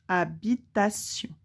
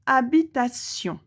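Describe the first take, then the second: First: "Habitation" split into separate syllables, ha-bi-ta-tion. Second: Said in the usual way. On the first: Shown as a demonstration. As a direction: sound out "Habitation" with small gaps between syllables. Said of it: "Où est-ce que tu entends". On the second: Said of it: "le dernier mot".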